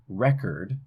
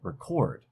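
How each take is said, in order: First: The stress is on the first syllable. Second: The stress is on the second syllable. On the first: It is a noun. "we have stress on that first syllable, and that's a noun form" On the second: It is a verb. "put it on the second syllable"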